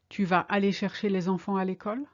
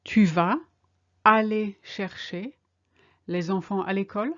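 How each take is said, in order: First: Fast, fluent, a rising end; quick, natural. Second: In chunks with pauses, a rising end; slow, chunked. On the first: Teacher giving the full question at natural speed. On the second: Teacher modelling the question for learners in slow chunks. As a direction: give it piece by piece. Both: Shown as a demonstration. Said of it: "Are you going to collect the kids from school?".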